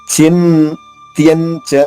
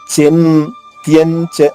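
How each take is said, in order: The two takes are said the same way.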